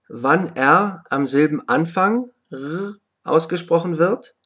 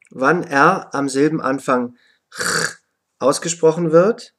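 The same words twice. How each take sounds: First: Second R as a voiced throaty German r sound. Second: Second R as a voiceless throaty "ch" rasp. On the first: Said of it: "Aussprache von R". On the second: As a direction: sound out the second "R" without voice, like the ch in "Bach". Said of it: "auch wie ein Ch ausgesprochen". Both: Shown as a demonstration.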